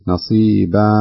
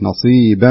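First: A vowel-like gap follows the b sound. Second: The b flows straight into the nasal sound. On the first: The speaker calls it wrong. "كأن فيه ألف فتكون بهذا الشكل نصيبا، هذا خطأ" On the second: The speaker calls it right. "الصحيح نصيبا على طول انتقل من الباء للغنة مباشرة"

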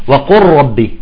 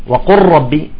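The two takes are said the same way.

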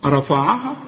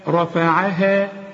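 First: The whole word sounds heavy and thick. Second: Only the r is heavy, the rest thin. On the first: The speaker calls it wrong. "كل الكلمة تضيع منك" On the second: The speaker calls it right. "رقق قوي الفه والعين والهاء والمد"

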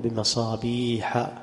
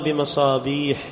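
First: The word ends with a short a-vowel. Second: The word ends with an i-vowel and -n. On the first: The speaker calls it right. "قل بمصابيح" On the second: The speaker calls it wrong. "فلا يجوز أن يقال بمصابيح لأن مصابيح لا ينصرف"

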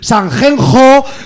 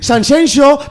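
First: The name is said with Castilian pronunciation. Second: The name is said with Valencian pronunciation. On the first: "después voy al castellano y tengo que decir super mal" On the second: "perquè en valencià la X es pronuncia aixina"

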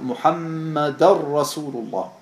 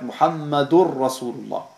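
First: The n merges into the r as ar. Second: The ending is said as ur before r. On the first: The speaker calls it right. "der Araber macht eine Verschmelzung vom N in das Ra rein" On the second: The speaker calls it wrong. "Ein berühmter Fehler ist, dass man in diesem Fall sagt Muhammadur Rasulullah"

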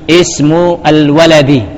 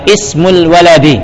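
First: The two words are said separately. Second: The two words run together without a break.

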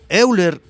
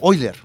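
First: The name begins with separate 'e' and 'u' vowels. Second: The name begins with a single 'oy' sound. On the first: The speaker calls it right. "Yo prefiero usar el español en forma más correcta, como está escrito" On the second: The speaker calls it wrong. "mucha gente pronuncia a Euler, lo pronuncia como Euler"

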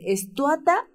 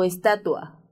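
First: It is said as estuata, with u before a. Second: It is said as estatua, with t before ua. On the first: The speaker calls it wrong. "hay gente que dice estuata en lugar de estatua" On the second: The speaker calls it right. "¿cómo se dice?"

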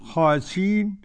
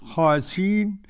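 First: The glottal stop is dropped entirely. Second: The glottal stop is dropped entirely.

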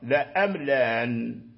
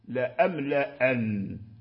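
First: Only the second glottal stop is softened. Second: Both glottal stops are fully pronounced. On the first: "تحقيق الأولى وتسهيل الثانية" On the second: "تحقيقهما معا لا أملأن كسائر القراء"

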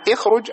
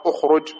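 First: The word begins with an 'i' vowel. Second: The word begins with a 'u' vowel. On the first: The speaker calls it wrong. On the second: The speaker calls it right.

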